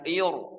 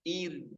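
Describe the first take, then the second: First: The r is heavy and thick. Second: The r is light and thin. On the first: The speaker calls it wrong. "bukan ir" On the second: The speaker calls it right. "Ro yang sukun sebelumnya kasroh tipis"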